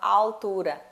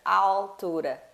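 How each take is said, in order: First: The L is said as a clear L. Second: The same.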